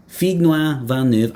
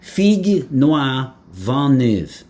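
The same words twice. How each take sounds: First: Said in the usual way. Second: "Figue Noir Vent Neuve" drawn out very slowly in French, each word weighed; grand proposal. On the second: Shown as a demonstration. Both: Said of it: "So I propose here and now".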